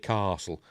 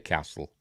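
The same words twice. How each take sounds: First: It is said in a posh English accent. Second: It is said in a Yorkshire accent. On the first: "Posh, posh English people say castle" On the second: "'cause I'm from Yorkshire. I say castle"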